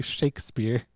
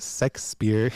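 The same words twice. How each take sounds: First: "Shakespeare" with a clear "shake" first syllable; "Shakespeare" said as SHAKE-speare; corrected pronunciation. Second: "Shakespeare" said as "Sexspeare"; wrong pronunciation. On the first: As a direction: correct it to "Shakespeare", starting on a "sh" sound. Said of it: "He's like". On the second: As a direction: quote the mistake, "Shakespeare" starting with "sex". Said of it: "Not Shakespeare". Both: Retold or imitated.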